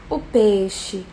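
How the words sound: It is said in a sad, downcast tone. "um peixe triste"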